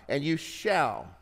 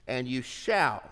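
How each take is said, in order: First: Slow, weighty "shall" leaned on hard; stress on shall. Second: Said in the usual way. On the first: Shown as a demonstration. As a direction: savor the word "shall". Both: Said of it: "I love the word shall".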